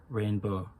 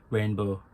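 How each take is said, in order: The two takes are said the same way.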